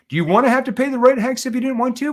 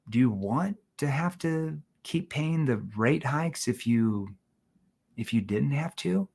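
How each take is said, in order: First: It is said at normal volume, bluntly. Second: It is said with a lowered, softer voice.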